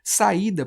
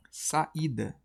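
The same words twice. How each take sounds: First: Said in the usual way. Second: "Saída" softer, parted as sa; separated syllables. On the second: Shown as a demonstration. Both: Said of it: "quando eu separo".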